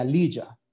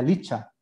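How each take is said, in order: First: "lilla" con ll sonora, como j inglesa; CHH suave y sonora. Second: "licha" con ch española; CH fuerte y sorda. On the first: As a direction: pronunciar "lilla" como "liya" fuerte, con voz en la consonante. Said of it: "de esta, eh, letra sería". ("lilla" con sonido suave zapoteco) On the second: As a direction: pronunciar "licha" con ch sin voz. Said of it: "Si lo escribes con una sola H". ("licha" con la ch de lechuga) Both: Shown as a demonstration.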